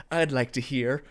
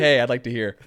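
First: Imitating a flat, mumbled movie line. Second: Livelier version. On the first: Mocking Rami Malek's flat delivery in the scene, mumbled and stiff. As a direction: read it stiff, like the actor didn't care. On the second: Shown as a demonstration. Suggesting a better reading to friends, louder and friendly. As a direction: say it louder with a friendly "Hey" up front. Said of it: "why didn't you just, like, say".

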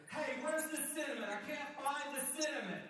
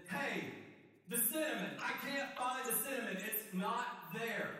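First: High, loud call from another room. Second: High, loud, insistent yelling; frantic shout. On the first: Housemate shouting from the kitchen, loud and high. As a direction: yell for the missing cinnamon. Housemate calls again, louder. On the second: Housemate yelling from the pantry that it's not there. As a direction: shout like the cinnamon vanished. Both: Acted.

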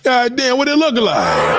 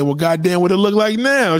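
First: Much higher, louder Goddamn drawn out; hammed-up amazement. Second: Mock stunned curiosity. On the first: Host replaying his reaction for the audience, hammed-up awe. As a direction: replay it bigger, as a dumbfounded gasp. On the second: Host imitating his own reaction to the reduction, mock amazed. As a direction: act out your own nosy surprise.

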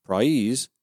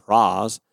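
First: "prize" with a full eye glide; young speakers' pronunciation. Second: "praz" drawn on an ah, without the glide; old Southern prize, said "praz"; older Georgian pronunciation. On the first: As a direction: say "prize" the modern way, gliding ah to ee. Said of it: "But the youngest speakers use". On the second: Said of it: "older Georgians pronounce the word prize as". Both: Shown as a demonstration.

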